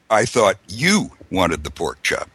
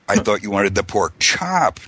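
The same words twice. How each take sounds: First: The stress is on the word 'you'. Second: The stress is on the word 'chop'. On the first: It was this person, not someone else, who wanted it. "not the other guy" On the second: It was the chop, not another cut of pork. "not, you know, the pork belly or whatever"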